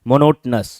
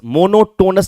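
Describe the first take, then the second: First: The middle syllable has a short, reduced vowel. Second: The middle syllable has a full 'oh' vowel. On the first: The speaker calls it right. "मोनोटनस ऐसे पढ़ा जाएगा" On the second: The speaker calls it wrong. "मोनोटोनस नहीं बोलने का"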